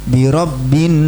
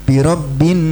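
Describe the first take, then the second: No difference in how they are said.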